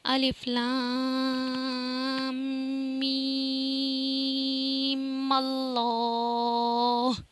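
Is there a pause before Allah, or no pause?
no pause. Mim runs straight into Allah without pausing.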